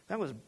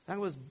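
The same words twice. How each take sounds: The two takes are said the same way.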